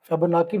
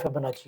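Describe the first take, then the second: First: The third syllable starts with a k sound. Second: The third syllable starts with a ch sound. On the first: The speaker calls it wrong. "कई लोग इसको फिबोनाकी भी पढ़ते हैं" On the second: The speaker calls it right. "सही इसकी pronunciation है वो फिबोनाची है"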